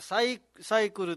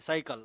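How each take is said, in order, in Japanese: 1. 真ん中の母音は、はっきりした u の音です。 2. 真ん中の母音は、弱い a に近い音です。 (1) "サイクルと言いますね" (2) "サイカルと言いますけども"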